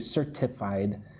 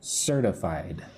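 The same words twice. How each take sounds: First: The T is a crisp, clear T sound. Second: The T is soft, almost like a D. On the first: The speaker calls it wrong. "I don't say certified" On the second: The speaker calls it right. "the T is soft, almost sounds like a D"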